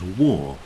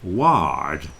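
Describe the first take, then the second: First: The vowel sounds like the one in door. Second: The vowel sounds like the one in car. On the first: The speaker calls it right. "But no, it's pronounced war" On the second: The speaker calls it wrong. "You would think it would be ward, yeah, because it's got A R in it"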